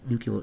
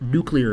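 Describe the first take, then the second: First: The word is said in the Midwestern way. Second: The word is said in the standard way. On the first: The speaker calls it wrong. "instead of nuclear" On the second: The speaker calls it right. "have to think nuclear in my head now"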